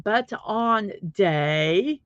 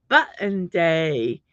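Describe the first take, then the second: First: BUT ON DAY as separate words, drawn out slowly; mispronounced button. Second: BUTTON DAY with the second syllable swallowed; correct button pronunciation. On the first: Streamer correcting viewers' misreading, button split as BUT ON. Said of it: "it's not but on day". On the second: Streamer correcting viewers, button said as one word, BUT-n. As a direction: run button together as BUT-n, slowly. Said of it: "No, it's not but on day". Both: Shown as a demonstration.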